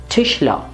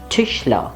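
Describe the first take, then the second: No difference in how they are said.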